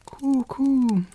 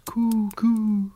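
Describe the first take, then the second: First: High, cooing pigeon call. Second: Breathy whispered pigeon coo. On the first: Wood pigeon calls to Gerda, high cooing. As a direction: coo it like a bird. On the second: Wood pigeon closes its tale with a whispered coo. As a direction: let the coo fade to a whisper. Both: A narrator's reading.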